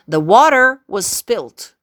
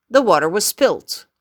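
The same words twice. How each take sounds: First: Slow and a bit louder, each word set apart; slow demo. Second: Said in the usual way. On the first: Shown as a demonstration. Teacher slowly models a sentence for students, slow and clear. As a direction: spell out the sentence slowly for learners. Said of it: "teacher demos sentence slowly". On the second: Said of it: "teacher repeats sentence normally".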